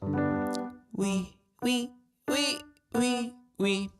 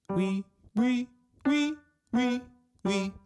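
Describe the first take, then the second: First: The voice sounds thin, light and squeaky. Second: The voice sounds fuller, with more sound.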